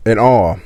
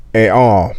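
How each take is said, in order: Both takes have the same delivery.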